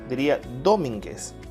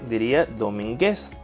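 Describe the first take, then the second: First: The stress is on the first syllable. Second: The stress is on the third syllable. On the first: "Si lo ponemos en do" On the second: "Y si la ponemos en gues"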